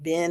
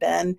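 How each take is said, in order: First: It is said with the AAVE vowel. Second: It is said with the Standard English vowel.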